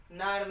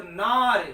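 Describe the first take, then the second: First: Said in the usual way. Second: नार hit hard and much louder; forceful stress on नार, meaning lion. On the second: Shown as a demonstration. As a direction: punch नार with heavy force. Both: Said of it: "जब इस शब्द पर उच्चारण पर बल देंगे".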